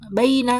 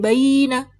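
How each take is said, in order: First: The first vowel is short, about two beats. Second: The first vowel is drawn out long. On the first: The speaker calls it right. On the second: The speaker calls it wrong.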